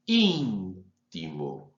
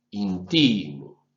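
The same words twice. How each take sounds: First: Íntimo very slowly, lower, with its pitch peak on the í; pitch on first syllable. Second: Intimo very slowly, lower, with its pitch peak on ti; pitch on second syllable. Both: Shown as a demonstration. Professor demonstrating pitch accent to students, slow and exaggerated. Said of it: "en un problema de altura".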